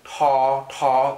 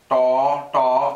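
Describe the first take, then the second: First: The consonant is said with a puff of air. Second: The consonant is said without a puff of air. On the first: "with an H, it would also be ta ta. So you'd actually hear that you hear a little puff of air" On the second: "whereas this would be pronounced da da"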